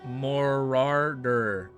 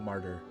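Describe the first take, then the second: First: The name is said with three syllables, like 'Morarder'. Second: The name is said with two syllables, like 'Martyr'. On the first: The speaker calls it right. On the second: The speaker calls it wrong.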